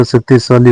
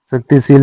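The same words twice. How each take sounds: First: शक्तिशाली with long aa, then li; correct -shaali ending. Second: शक्तिशील ending in long ee plus l; wrong -sheel ending. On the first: Teacher giving learners the correction, शक्तिशाली ending -shaali. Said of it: "शक्तिशील नहीं होता". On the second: Teacher showing learners the mistake, शक्तिशील ending -sheel. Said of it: "शक्तिशाली होता है". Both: Shown as a demonstration.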